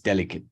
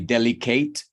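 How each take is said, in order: First: The final syllable has a reduced schwa vowel. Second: The final syllable has a full vowel. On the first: The speaker calls it right. "So it turns into a schwa at the end" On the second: The speaker calls it wrong. "and you say delicate. No"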